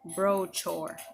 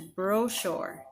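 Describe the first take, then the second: First: The middle consonant is a hard ch sound. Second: The middle consonant is a soft sh sound. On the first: The speaker calls it wrong. "not brochure" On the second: The speaker calls it right. "S H sound instead of ch. So the word is brochure"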